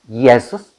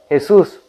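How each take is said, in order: First: The name is said with a Latin pronunciation. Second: The name is said with a Spanish pronunciation. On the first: "o acento latín" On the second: "o en español"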